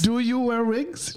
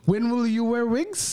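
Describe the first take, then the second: First: High, slow fake German accent; hammy German interviewer voice. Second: High, slow mock German accent; drawn-out German interviewer voice. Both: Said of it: "doing a German accent".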